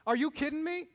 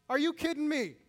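First: Higher and louder, rising at the end; a mock-incredulous question, tongue in cheek; what Jesus does not say, with rising disbelief; indignant outburst. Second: Higher and louder, falling at the end; flat mock refusal, tongue in cheek; what Jesus does not say, with falling scorn; indignant outburst. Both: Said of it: "Is that what Jesus says?".

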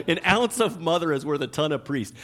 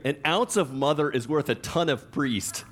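First: Said in the usual way. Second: Laughing. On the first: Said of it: "I like that one". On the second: Shown as a demonstration. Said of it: "I'm like, I like that one".

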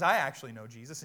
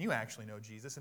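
First: "I" punched loud, quick rest of line; loud emphatic "I" up front; stress on I. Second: "you" leaned on, rest runs quickly; emphatic "you", turned to the listeners; stress on you. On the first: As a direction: hit the word "I" hard. Contrasting himself with the listeners. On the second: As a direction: hit the word "you". Turns the claim onto the listeners. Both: Real, not acted.

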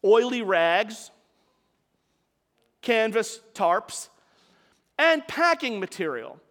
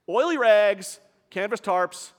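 First: Slow, each item weighed out; slow list. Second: Said in the usual way. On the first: Shown as a demonstration. Preacher opening the story, slow deliberate listing. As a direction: lay out the fuel one item at a time.

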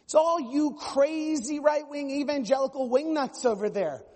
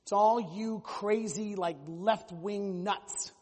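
First: Higher, louder mock outrage; shrill out a hammed-up accusation; mock indignant progressive. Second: Slow, sneering drawl of a mock churchgoer; mock scornful conservative. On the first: Pastor mimicking a progressive scolding evangelicals, higher mock outrage. Mocking the other side. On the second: Pastor mimicking a conservative scolding liberals, slow mock sneer. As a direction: stretch out each word like a dismissive critic. Mocking one side of church.

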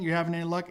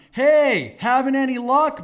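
First: Said in the usual way. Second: High, loud holler across water; hearty raised shout; yelling out. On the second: Retold or imitated. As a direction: call out to men in a distant boat. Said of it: "he yells out to them".

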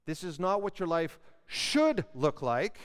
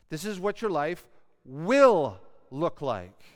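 First: "should" monte, léger accent; stress on should. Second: "will" appuyé fort, lent, en descendant; stress on will. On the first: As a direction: lift the word "should" a little. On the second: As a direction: hit "will" hard and slow. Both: Shown as a demonstration. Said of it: "Why do I emphasize the word will?".

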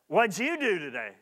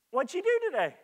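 First: Flat, dismissive asking; curt question. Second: Light, higher, friendly asking; gentle question. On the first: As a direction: ask it bluntly, without interest. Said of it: "you'll receive another type of answer". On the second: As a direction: ask kindly, with interest. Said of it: "you'll receive one type of answer". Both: Shown as a demonstration.

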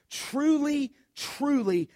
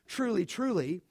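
First: Both truly words stressed, the first lifted high; double emphatic. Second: Said in the usual way. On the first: Shown as a demonstration. Preacher reading scripture to church, stressing truly twice. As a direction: lean hard on the first truly. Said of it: "A double emphatic". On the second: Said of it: "whenever you see that phrase".

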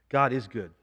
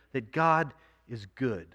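First: God is good, said evenly with a falling close; plain emphatic statement. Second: That God is good, slow and soft with weight on God; hushed reverent emphasis on God; slow, emphatic. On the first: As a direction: state it simply as truth. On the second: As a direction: lean on God, drawing it out. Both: Shown as a demonstration.

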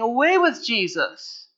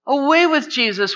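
First: Said in the usual way. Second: Higher, louder repeat of the cry; preacher voicing the mob's shout; loud mock crowd cry. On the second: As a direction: throw it out like an angry mob.

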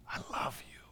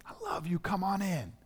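First: Whispered love. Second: Tender father. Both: Acted. Father welcomes the forgiven child.

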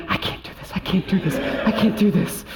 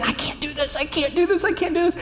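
First: Breathy, imitated freaking-out doctor; mock panic through heavy breathing, softer; hyperventilating panic. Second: High, rising mock panic; panicked repeating. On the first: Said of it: "She's breathing heavier than Ginny". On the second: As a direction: imitate a wife in labor panicking, voice climbing. Wife in labor, said over and over.

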